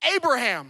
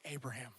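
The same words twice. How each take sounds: First: The name is yelled loudly. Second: The name is said quietly.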